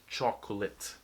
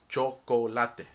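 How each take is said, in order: First: The word is pronounced with English sounds. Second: The word is pronounced with Spanish sounds. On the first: "English, no, chocolate" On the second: "If you read chocolate in Spanish, it will, you will pronounce it in Spanish. You say chocolate"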